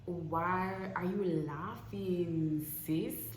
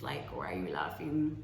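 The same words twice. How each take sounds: First: Drawn-out, hurt disbelief at a friend; slow incredulous question. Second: Said in the usual way. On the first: Retold or imitated. To a friend laughing at her news: slow hurt disbelief. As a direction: slowly ask why she laughs, wounded. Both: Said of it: "So then I'm like".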